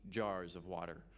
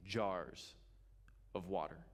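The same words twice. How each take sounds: First: Said in the usual way. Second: "jars" drawn out, then a pause; stress on jars. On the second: Shown as a demonstration. Preacher stresses how big they are, "jars" drawn out. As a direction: stretch out "jars", then drop "of water" low.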